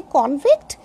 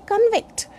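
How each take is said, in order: First: "convict" with a full O in the first syllable; noun convict. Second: "convict" with a weak first vowel; verb convict. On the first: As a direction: say "convict" as KON-vikt. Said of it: "convict is noun or adjective". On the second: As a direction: say "convict" as kun-VIKT. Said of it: "then convict is verb". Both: Shown as a demonstration.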